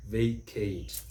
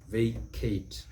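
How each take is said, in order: Both takes have the same delivery.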